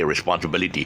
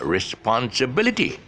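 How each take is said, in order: First: The stressed syllable has normal, natural strength. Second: The stressed syllable is exaggerated and extra strong. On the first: This is how it sounds in everyday speech. "if I normally speak, I, I'll just say responsibility" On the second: The stress is being emphasized for teaching. "I'm actually stressing on the syllable that needs to be stressed extra"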